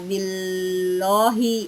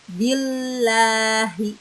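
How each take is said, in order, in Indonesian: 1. Huruf l-nya tebal, dengan vokal 'o'. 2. Huruf l-nya tipis, dengan vokal 'a'. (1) "Bukannya billohi, bukan" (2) "Maka kita membacanya billahi"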